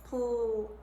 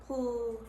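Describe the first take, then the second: Both takes have the same delivery.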